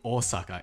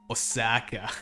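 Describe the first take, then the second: First: It is said with a Japanese accent. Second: It is said with a thick Australian accent. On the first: This is the usual pronunciation. The speaker calls it right. "instead of" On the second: The speaker is not even trying to sound Japanese. The speaker calls it wrong. "it's like"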